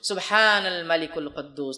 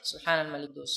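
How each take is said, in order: First: It is said loudly. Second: It is said quietly.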